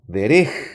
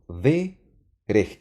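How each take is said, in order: First: The stress is on the second syllable. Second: The stress is on the first syllable. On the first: The speaker calls it wrong. "y no derej" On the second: The speaker calls it right. "estoy pronunciando de rej"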